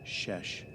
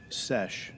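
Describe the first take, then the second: First: The word begins with an sh sound. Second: The word begins with a plain s sound. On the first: The speaker calls it wrong. "not a shesh" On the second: The speaker calls it right. "it's sesh"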